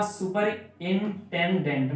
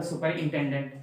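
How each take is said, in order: First: सुपरिंटेंडेंट slow, cut into four parts; syllable by syllable. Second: Said in the usual way. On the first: Shown as a demonstration. Teacher showing four syllables, सुपरिंटेंडेंट slowly broken up. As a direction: break सुपरिंटेंडेंट into distinct, spaced beats. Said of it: "इसको हम चार बार में पढ़ रहे हैं". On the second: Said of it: "मतलब".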